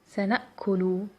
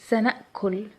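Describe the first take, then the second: No difference in how they are said.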